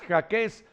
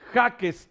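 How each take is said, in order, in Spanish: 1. El acento cae en la última sílaba. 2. El acento cae en la primera sílaba. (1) "acentuando prosódicamente la última sílaba" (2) "cuando todos sabemos que es Jaques"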